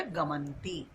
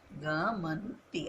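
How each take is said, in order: First: Said in the usual way. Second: Each syllable of गमंती drawn out very slowly; slow dictation. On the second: Shown as a demonstration. Teacher dictating the wrong word गमंती to students, very slow. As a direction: spell out गमंती slowly so students can write it. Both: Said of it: "अशुद्ध शब्द कौन सा हो गया?".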